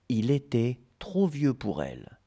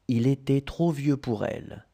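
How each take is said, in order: Both takes have the same delivery.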